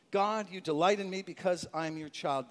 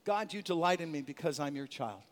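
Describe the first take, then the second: First: Affirmation. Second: Quiet affirmation. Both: Shown as a demonstration. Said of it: "How do we strengthen ourselves".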